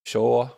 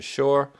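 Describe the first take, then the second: First: Shore with the r sounded clearly; Shore, careful full r at the end; corrected pronunciation. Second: Dropped-r New England shore; New England accent. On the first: Shown as a demonstration. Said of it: "feel like I wanna correct it". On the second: Real, not acted. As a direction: shore said as shaw, no r. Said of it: "every time I say it in my, my New England accent".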